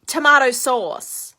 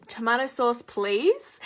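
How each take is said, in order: First: Loud, slow, blunt demand; mock a rude customer yelling, dragging out both words; retold yell. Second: "please" set apart with a rising, questioning lift; prompting correction. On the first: American lady yelling at the waitress, mock demanding yell. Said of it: "she's literally just yelling at me". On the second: Retold or imitated. Waitress correcting a rude customer, prompting "please". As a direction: model the polite form, tipping "please" up at the end. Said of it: "she'd already been rude to me".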